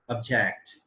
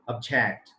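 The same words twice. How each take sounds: First: It carries the verb stress pattern. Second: It carries the verb stress pattern.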